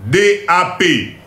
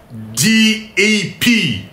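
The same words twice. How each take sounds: First: Said in the usual way. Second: D A P spelt out slowly as English "dee ay pee"; slow, deliberate English "dee ay pee" for D A P; English letter names. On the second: Shown as a demonstration. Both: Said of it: "Monique anglais".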